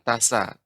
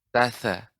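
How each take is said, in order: First: The consonant is an 's' sound. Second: The consonant is a 'th' sound. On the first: The speaker calls it wrong. "bukan tasa" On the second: The speaker calls it right. "akan tapi tatha"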